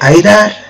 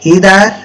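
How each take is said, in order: First: The word begins with an 'eye' sound. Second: The word begins with an 'ee' sound. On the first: "উচ্চারণ কিন্তু দুটোই ঠিক" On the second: "উচ্চারণ কিন্তু দুটোই ঠিক"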